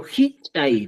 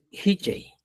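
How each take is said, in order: First: Hichay split, with a popped ch; pronunciación cusqueña. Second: Hichay with a simple, smooth ch; pronunciación chanca. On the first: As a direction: punch the ch in Hichay. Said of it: "decimos, ¿eh?". (Hichay cusqueño, con ch explosiva) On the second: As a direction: say Hichay without popping the ch. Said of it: "En cambio, dices". (Hichay chanca, con ch simple) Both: Shown as a demonstration.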